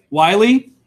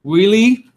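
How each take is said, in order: First: Wiley as WHY-lee, loud, questioning; Wiley guessed as "WHY-lee?"; second pronunciation guess. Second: Wiley as WEE-lee, higher, questioning; Wiley guessed as "WEE-lee?"; first pronunciation guess. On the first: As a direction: ask Wiley with an "eye" first vowel. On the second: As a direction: ask Wiley with an "ee" first vowel. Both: Shown as a demonstration. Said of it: "Is it".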